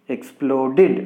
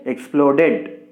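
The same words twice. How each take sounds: First: The ending is an extra 'id' syllable. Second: The ending is a plain 'd' sound. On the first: The speaker calls it right. "this ed should be pronounced as" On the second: The speaker calls it wrong. "We should not say"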